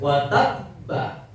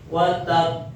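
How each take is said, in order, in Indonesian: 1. Huruf b terakhir diikuti vokal. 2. Huruf b terakhir berhenti dengan sedikit mantul (qalqalah). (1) "Ketika hidup" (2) "ketika mati watab, berarti mantul"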